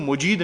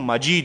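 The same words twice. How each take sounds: First: The first vowel is a 'u' sound. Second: The first vowel is an 'a' sound. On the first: The speaker calls it wrong. "یہ انک حمید مجید نہیں ہے" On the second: The speaker calls it right. "بلکہ انک حمید مجید ہے، میم کے اوپر زبر ہے"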